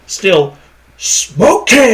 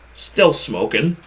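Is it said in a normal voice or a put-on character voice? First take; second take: put-on; normal. First: It is said in an impression of the Mask. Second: It is said in his normal voice.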